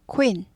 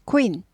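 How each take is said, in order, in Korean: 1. k 뒤에 짧고 빠른 'oo' 소리가 붙습니다. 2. k 뒤에 짧고 빠른 'oo' 소리가 붙습니다.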